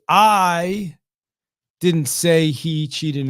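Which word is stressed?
I. The word "I" carries the main stress. Someone else said it. "So it's like I didn't say it, right? Someone else may say it"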